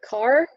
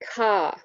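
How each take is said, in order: First: The final R sound is pronounced. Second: The final R sound is dropped.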